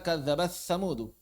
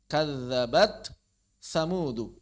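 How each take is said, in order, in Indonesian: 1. Bunyi t menyatu dengan bunyi yang mengikutinya. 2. Bunyi t dibaca jelas sebelum bunyi berikutnya. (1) "jangan dibaca" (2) "huruf ta dibaca izhar"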